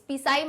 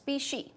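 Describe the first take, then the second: First: The word ends with a 'sai' sound. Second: The word ends with a 'shee' sound. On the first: The speaker calls it wrong. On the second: The speaker calls it right.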